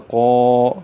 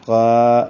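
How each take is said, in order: First: قا with a thick qaf and a full, heavy alif. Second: قا with a heavy qaf but a thin alif; mispronounced قا; wrong thin alif. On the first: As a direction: make قا round and heavy throughout. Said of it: "قاف کا جو الف ہے وہ بھی پر ہوگا". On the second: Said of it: "یہ قا کہنا غلط ہے". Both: Shown as a demonstration.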